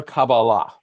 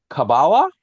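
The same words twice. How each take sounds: First: "Kabbalah" said the Sephardic way; Sephardic pronunciation. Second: "Kabbalah" said the Ashkenazi way; Ashkenazi pronunciation. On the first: Teacher offering the second reading of a Hebrew word, Sephardic pronunciation. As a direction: say "Kabbalah" as Sephardic Jews do, like Shabbat. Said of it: "Kabbalah is the Sephardic way of pronouncing". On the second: Teacher contrasting two readings of a Hebrew word, Ashkenazi pronunciation. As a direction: say "Kabbalah" as Ashkenazi Jews do, like Shabbos. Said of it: "Kabbalah is the Ashkenazi way of pronouncing".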